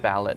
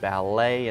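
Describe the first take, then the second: First: The final T is pronounced. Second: The final T is silent. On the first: The speaker calls it wrong. "instead of" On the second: The speaker calls it right. "it will be silent. So ballet"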